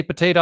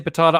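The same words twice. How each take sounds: First: Potato said as po-TAY-to; long-A pronunciation. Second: Potato said as po-TAH-to; broad-A pronunciation. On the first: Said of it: "you say potato". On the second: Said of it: "I say potato". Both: Shown as a demonstration.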